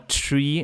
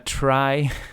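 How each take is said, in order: First: The word is said with an 'ee' vowel. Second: The word is said with an 'eye' vowel. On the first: This is the standard pronunciation of the term. "the actual pronunciation is tree" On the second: It keeps the term apart from an ordinary tree. "I'm used to saying try"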